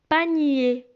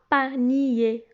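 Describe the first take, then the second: First: The i is a quick y glide. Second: The i is a separate full vowel. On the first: The speaker calls it right. "on dit panier" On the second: The speaker calls it wrong. "on ne dit pas panier"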